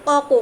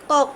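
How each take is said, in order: First: "ক, ক" as two open syllables, each k with its vowel; full vowels. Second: "কক" as one closed syllable, final k with no vowel; stopped final consonant. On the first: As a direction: give both letters of "ক, ক" their full vowel. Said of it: "ক এর যে পরিপূর্ণ উচ্চারণটা এভাবে হয়". ("ক, ক" দুটোই স্বরসহ পূর্ণ উচ্চারণে) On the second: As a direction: cut "কক" off on the second k. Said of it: "এটা হসন্ত আমরা সরাই ফেলাই". ("কক" শেষের ক হসন্ত দিয়ে, স্বর ছাড়া) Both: Shown as a demonstration.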